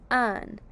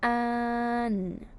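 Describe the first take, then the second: First: Said in the usual way. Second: "Un" stretched long on one level note; sounded out. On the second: Shown as a demonstration. Teacher says let's sound out un, drawn out. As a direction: hold both sounds of "Un" slowly. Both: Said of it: "let's sound out un".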